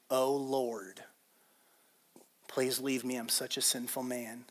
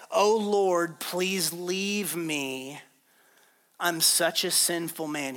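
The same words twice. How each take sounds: First: Low, hushed confession; awed realization. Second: Slow, drawn-out plea to the Lord; humbled plea. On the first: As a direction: say it softly, as it sinks in. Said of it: "He just realized who he's". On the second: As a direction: beg him, stretching out the words. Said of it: "fell to his knees before Jesus". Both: Retold or imitated.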